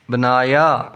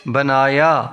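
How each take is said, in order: Both takes have the same delivery.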